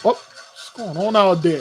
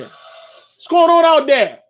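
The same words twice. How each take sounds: First: Said in the usual way. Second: Loud, high, drawn-out holler; calling out. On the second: Real, not acted. Host hollers at a noise out there, calling out loudly. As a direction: holler it slowly, pitched way up. Calls out again, much louder.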